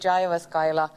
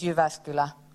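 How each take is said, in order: First: The name is pronounced the way foreigners say it. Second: The name is pronounced the native Finnish way. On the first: The speaker calls it wrong. "all people coming here from abroad, they always say" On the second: The speaker calls it right. "the correct way of pronouncing this place is"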